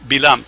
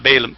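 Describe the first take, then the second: First: The name starts with a short 'bill' sound. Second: The name starts with a 'bay' or 'bah' sound. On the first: The speaker calls it right. "the pronunciation is Bilam" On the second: The speaker calls it wrong. "not Balaam"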